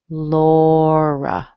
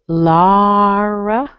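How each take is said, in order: First: The first vowel is an open 'aw'. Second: The first vowel is not an open 'aw'. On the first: "like that open O that we discussed" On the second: "You can do Lara"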